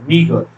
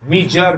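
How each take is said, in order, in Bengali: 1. মাঝের ব্যঞ্জনবর্ণটি কঠিন g। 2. মাঝের ব্যঞ্জনবর্ণটি j ধ্বনি। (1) "উচ্চারণটা হচ্ছে মিগার" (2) "মিজার নয়"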